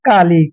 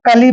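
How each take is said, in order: First: The ending has a long, fully sounded a vowel. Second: The ending has a short vowel, with the a silent. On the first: The speaker calls it wrong. "ना कि काली" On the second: The speaker calls it right. "तो इसलिए हम इसको कली पढ़ेंगे"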